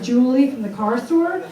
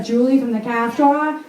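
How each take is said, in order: First: Said in the usual way. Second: Put-on New England accent, R's dropped in "car store"; Lois. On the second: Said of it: "just like Lois".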